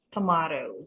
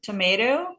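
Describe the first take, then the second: First: It is said with a British accent. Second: It is said with an American accent. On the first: "kalau British tomato" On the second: "Tomat itu American tomato"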